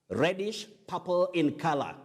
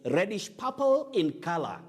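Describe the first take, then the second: No difference in how they are said.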